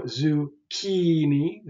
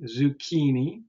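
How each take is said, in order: First: Zucchini as zoo-KEE-nee, KEE stretched out; second-to-last syllable stressed. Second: Said in the usual way. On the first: Shown as a demonstration. Teacher showing where stress falls, zucchini with KEE drawn out. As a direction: lean long on the KEE in zucchini. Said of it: "The second to last syllable". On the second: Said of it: "That's the second to last".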